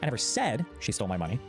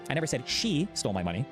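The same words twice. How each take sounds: First: The stress is on the word 'said'. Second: The stress is on the word 'she'. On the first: It was implied but not said outright. "I might have implied it in some way, but I never explicitly said it" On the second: Someone other than her took it. "I just said someone took it. I didn't say it was she"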